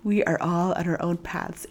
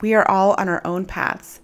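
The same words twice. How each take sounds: First: It is said in a Zen master voice. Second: It is said in her normal voice.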